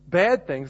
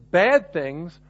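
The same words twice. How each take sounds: First: Said in the usual way. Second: "bad things" set off in ironic scare quotes, leaning on "bad"; slow, ironic "bad things" in air quotes; air-quoted. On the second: Shown as a demonstration. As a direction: say "bad things" as if framing it with finger quotes, slowly. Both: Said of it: "I'm gonna put those air quotes up there".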